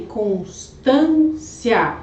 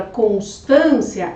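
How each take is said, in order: First: Constância split as cons, TÂN, cia; split into syllables. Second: Said in the usual way. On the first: Shown as a demonstration. Teacher showing why it qualifies, constância syllable by syllable. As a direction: slowly break constância apart, holding TÂN before the pause. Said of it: "é uma paroxítona". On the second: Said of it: "Agora, a palavra constância".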